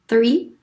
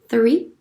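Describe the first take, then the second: Both takes have the same delivery.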